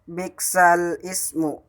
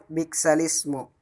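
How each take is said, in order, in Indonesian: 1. Kedua kata itu diucapkan terpisah. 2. Kata-kata itu disambung tanpa hamzah.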